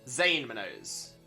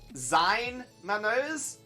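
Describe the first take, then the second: First: The first word rhymes with 'lane'. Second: The first word rhymes with 'line'. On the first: The speaker calls it right. "So like more like Zane Manos" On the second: The speaker calls it wrong. "I've been pronouncing it Zine Manos"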